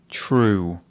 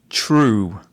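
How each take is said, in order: The two takes are said the same way.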